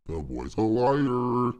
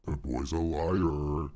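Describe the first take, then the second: First: Slow, higher and louder put-on voice; Pirate Software voice, louder. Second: Slow, drawn-out put-on voice; Pirate Software voice. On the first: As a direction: push it up and belt it out slowly. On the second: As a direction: drag out each word in character. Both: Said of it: "Let me get the Pirate Software voice going".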